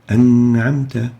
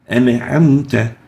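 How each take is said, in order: First: The n is held plainly without any bounce. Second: The n is released with an extra bounce. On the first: The speaker calls it right. "just a simple An'amta" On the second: The speaker calls it wrong. "make this Nun with qalqala"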